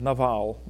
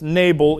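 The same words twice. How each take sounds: First: The stress is on the second syllable. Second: The stress is on the first syllable. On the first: This is the original Hebrew way of saying the name. "Hebrew doesn't have a long A sound. So it's Nabal" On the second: This is the English way of saying the name. "We pronounce this Nabal in English because we tend to put our emphasis on the first syllable"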